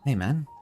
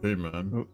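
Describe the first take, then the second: First: It is said in a normal voice. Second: It is said in a deep, refined voice.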